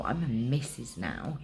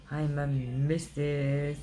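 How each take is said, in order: First: Said in the usual way. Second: "I'm a missus" stretched out slowly and savoured; proud drawn-out boast. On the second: Real, not acted. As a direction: gloat over each word slowly. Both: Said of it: "Look, I'm like".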